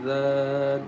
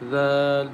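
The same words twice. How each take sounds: Both takes have the same delivery.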